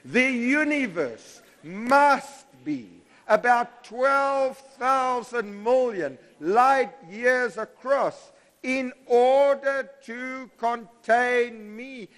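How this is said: It is said with strong passion.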